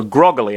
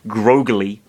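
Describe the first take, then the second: First: Groggily with a short o, GROG-uh-lee; intended word. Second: Groggily with a long "oh", GROH-guh-lee; as spelt. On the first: Reader settling on the intended word, groggily with short o. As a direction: say groggily with the o of "dog". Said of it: "I'll just say, because that's presumably what he meant". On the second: Reader sounding out the misspelling, groggily with long "oh". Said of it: "In fact, it's spelt". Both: Shown as a demonstration.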